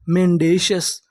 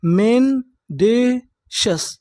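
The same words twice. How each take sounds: First: Said in the usual way. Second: "मेंडेशस" very slowly, with gaps between syllables; teacher's drawn-out breakdown of "मेंडेशस". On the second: Shown as a demonstration. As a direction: sound out "मेंडेशस" in three stretched pieces. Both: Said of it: "पूरी meaning क्या बनी".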